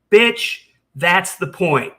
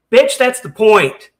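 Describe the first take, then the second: First: Said in the usual way. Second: Slow, louder, biting retort; angry retort. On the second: Real, not acted. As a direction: drive the point home slowly and loudly. Heated argument with Carrie.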